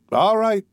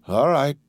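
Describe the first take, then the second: First: Hurried alarmed repeat; alarmed high cry. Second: Said in the usual way. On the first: Acted. Jailer calming an angry prisoner.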